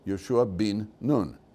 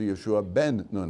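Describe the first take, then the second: First: The middle word has an 'ee' vowel. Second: The middle word has an 'eh' vowel. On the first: This is the form used for this man's name. "it's pronounced as bin" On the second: This is the usual form found everywhere else. "as opposed to Yoshua ben Nun"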